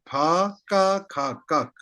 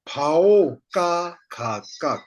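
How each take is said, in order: First: The first syllable ends in a plain 'a'. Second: The first syllable ends in an 'ao' sound. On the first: This is how the speaker reads it. "I say" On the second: Some teachers read it this way. "some teachers say phao ka kha kak, like this"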